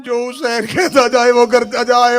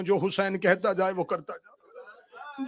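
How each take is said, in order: First: Emphatic repeat. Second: Said in the usual way. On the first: Acted. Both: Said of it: "پہلی اور آخری بار کہہ رہی ہوں".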